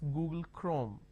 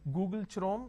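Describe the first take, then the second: First: Chrome begins with a k sound. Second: Chrome begins with a ch sound. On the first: The speaker calls it right. "The pronunciation is Google Chrome" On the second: The speaker calls it wrong.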